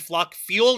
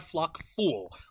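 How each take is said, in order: First: The second word is said like 'fyool'. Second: The second word is said like 'fool'. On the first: The speaker calls it right. "Said flock fuel" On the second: The speaker calls it wrong. "not flock fool"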